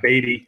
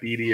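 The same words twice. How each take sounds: First: The name does not rhyme with meaty. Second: The name rhymes with meaty. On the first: The speaker calls it right. "it is Beaty" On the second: The speaker calls it wrong. "It looks like Beaty if you're looking at it"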